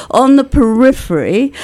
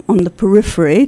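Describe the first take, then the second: First: Lifted, savoured On the periphery with a rise; quoting a critic's pet phrase. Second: Said in the usual way. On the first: Retold or imitated. Guest quoting the critic's favourite phrase, savouring it. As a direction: mark "On the periphery" as a borrowed catchphrase, rising at the end. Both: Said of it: "to quote one of Gary's favorite phrases".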